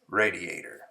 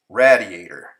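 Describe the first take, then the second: First: The word does not rhyme with gladiator. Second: The word rhymes with gladiator. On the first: The speaker calls it right. "the correct pronunciation is radiator" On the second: The speaker calls it wrong. "to rhyme with gladiator"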